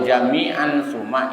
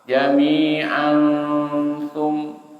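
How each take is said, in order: First: The n sound is pronounced fully and clearly. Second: The n sound is blurred and nasal, not clear. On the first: The speaker calls it wrong. "idhar namanya. Nunnya jelas" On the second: The speaker calls it right. "menekannya sudah menghadapi huruf sa"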